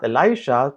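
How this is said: The name has an American English pronunciation. The speaker calls it wrong. "It's not Elisha, para sa mga pag-pronounce sa mga Amerikano"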